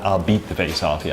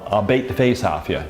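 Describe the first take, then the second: First: The vowel in beat rhymes with see. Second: The vowel in beat rhymes with face. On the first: This is the modern pronunciation. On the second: This is the old pronunciation, still heard in places. "They used to say"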